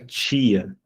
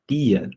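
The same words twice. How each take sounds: First: The word starts with a ch sound. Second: The word starts with a plain t sound. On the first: The speaker calls it wrong. "nunca tchá, tchá, nunca tia" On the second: The speaker calls it right. "É tia"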